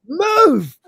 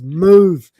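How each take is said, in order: First: Sharp high shout of Move. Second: Said in the usual way. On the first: Retold or imitated. Lister snapping at Cat to move. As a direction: bark Move! loud and high. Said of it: "he hasn't shouted yet". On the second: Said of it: "He just says".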